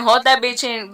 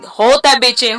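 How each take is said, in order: First: Said in the usual way. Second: Urging to hold it. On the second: Retold or imitated. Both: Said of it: "they told me".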